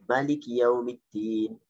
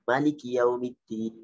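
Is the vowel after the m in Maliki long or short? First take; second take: short; short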